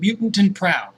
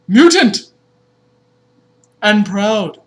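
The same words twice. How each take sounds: First: It is said casually, like ordinary talk. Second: It is read like a product slogan.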